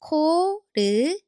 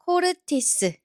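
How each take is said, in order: First: 코르티스 broken into four separate, drawn-out syllables; slow, syllable by syllable. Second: 코르티스 run together as one word; syllables connected. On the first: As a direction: sound out 코르티스 slowly, one syllable at a time. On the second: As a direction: blend 코르티스 smoothly without gaps between syllables. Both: Shown as a demonstration. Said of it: "Now connect them slowly".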